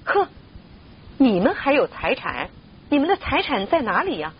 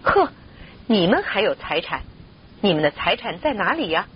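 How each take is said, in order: First: Mildly raised, higher-pitched scornful challenge; understated narrated shout, pitched up; indignant cry. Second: Restrained scoffing question in a narrator's voice; mildly incredulous, near usual pitch; scornful retort. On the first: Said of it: "一致同声大喝道". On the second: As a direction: scoff at their claim without shouting. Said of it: "他们一致说". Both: A narrator's reading.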